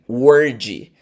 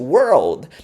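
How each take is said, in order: First: It is said without an L sound. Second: It is said with an L sound. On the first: The speaker calls it wrong. "Aí você fala o word" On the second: The speaker calls it right. "Aí fica world"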